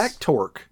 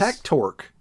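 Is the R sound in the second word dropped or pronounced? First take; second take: pronounced; pronounced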